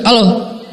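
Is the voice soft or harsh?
harsh. It is said in a deliberately rough, harsh voice.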